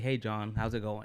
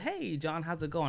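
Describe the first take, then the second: First: The pitch stays flat and low in energy. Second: The pitch moves up and down with energy. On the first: The speaker calls it wrong. "I didn't just say" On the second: The speaker calls it right. "it wasn't monotone"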